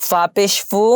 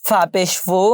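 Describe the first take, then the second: Both takes have the same delivery.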